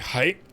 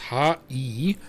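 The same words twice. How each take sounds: First: The two syllables merge into one short sound. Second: The two syllables are said separately with a gap. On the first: "just say hai, shorten" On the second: "the word hi actually is pronounced ha-i"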